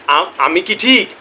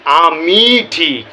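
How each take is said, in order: First: Said in the usual way. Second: "আমি ঠিক" drawn out very slowly and louder with weight on "ঠিক"; stress on ঠিক. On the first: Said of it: "দ্বিতীয় শব্দের উপরে জোর দেওয়া হচ্ছে". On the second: Shown as a demonstration. Explaining his catchphrase to viewers, stressing ঠিক to show he is certain. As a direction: press down on "ঠিক" as a sure answer. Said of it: "মানে দ্বিতীয় শব্দের উপরে জোর দেওয়া হচ্ছে".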